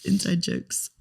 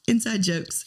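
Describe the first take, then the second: First: Said in the usual way. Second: Laughing. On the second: Real, not acted. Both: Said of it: "We're laughing at each other".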